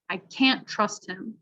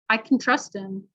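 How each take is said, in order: First: CAN'T slow and long with a clear "a" vowel; stress on CAN'T. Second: "can" reduced to kin, stress falls on "trust"; unstressed can. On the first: Teacher contrasting for listening students, long stressed CAN'T. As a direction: stress can't clearly before trust him. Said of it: "So can't is gonna be emphasized". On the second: Teacher contrasting for listening students, can unstressed as kin. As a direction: relax can into a short kin before trust. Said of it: "we'll actually pronounce it like kin". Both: Shown as a demonstration.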